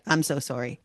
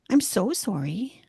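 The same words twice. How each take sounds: First: It is said plainly and matter-of-factly. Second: It is said in a small, pleading way.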